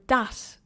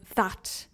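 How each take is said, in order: First: The th sound is replaced by another sound. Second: The th sound is said as a standard th. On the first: "or that" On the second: "instead of that"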